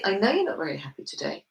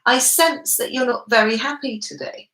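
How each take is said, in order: First: Low, quick, matter-of-fact certainty; confident. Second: Higher, unhurried, unsure observation; tentative sensing. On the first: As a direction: state it softly as a known fact, pitched down. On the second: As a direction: feel your way through it, higher in pitch. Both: Shown as a demonstration. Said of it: "that's my level of confidence".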